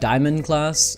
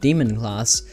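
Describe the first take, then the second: First: The first word sounds like 'diamond'. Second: The first word sounds like 'demon'. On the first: "I was pronouncing it Diamond class" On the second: "then I started pronouncing it Demon class"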